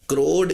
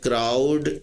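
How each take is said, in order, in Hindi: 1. स्वर की ध्वनि 'go' में 'oh' जैसी है। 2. स्वर की ध्वनि 'cow' में 'ow' जैसी है। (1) "क्रोड होगी, क्योंकि वर्ड क्रो से है" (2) "इसकी प्रोनाउंसिएशन क्राउड नहीं होगी"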